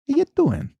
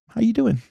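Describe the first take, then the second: First: It is said in a Little Italy Italian-American accent. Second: It is said in his plain, normal accent.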